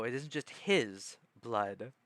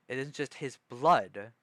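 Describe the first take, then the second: First: "his" stretched out and punched, "blood" dropping after; emphatic "his", implying other people's too; stress on his. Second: "blood" punched louder at the end; heavy emphasis landing on "blood"; stress on blood. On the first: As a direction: hit the word "his", then let "blood" fall. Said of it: "I emphasized the word him". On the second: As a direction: lean on the last word, "blood". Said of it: "if I emphasized his blood". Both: Shown as a demonstration.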